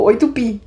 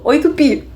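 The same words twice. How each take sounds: First: Said in the usual way. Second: Raised mock greeting; playful greeting. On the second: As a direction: lift it like a joke setup. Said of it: "e falou". (saudação brincalhona, um pouco aguda)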